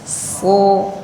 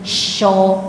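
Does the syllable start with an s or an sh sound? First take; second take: s; sh. First: The syllable starts with a plain s sound. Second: The syllable starts with an sh sound. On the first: The speaker calls it right. "bukan sy tapi s biasa" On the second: The speaker calls it wrong. "kadang-kadang bunyinya jadi sho, enggak"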